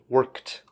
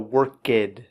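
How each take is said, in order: First: The ending is a short 'kt' sound. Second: The ending is not a short 'kt' sound. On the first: The speaker calls it right. "Kt, kt. Right, that K E D" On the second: The speaker calls it wrong. "Make sure that there's no worked"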